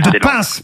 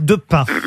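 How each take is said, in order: First: The final S sound is pronounced. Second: The final S sound is not pronounced. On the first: The speaker calls it right. "on prononce le S" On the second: The speaker calls it wrong. "on prononce le S"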